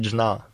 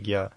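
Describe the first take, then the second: First: It is pronounced as dzhna, with a plain n. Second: It is pronounced as gya, with a g sound. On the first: The speaker calls it wrong. "Но не джна" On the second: The speaker calls it right. "лучше правильнее гья"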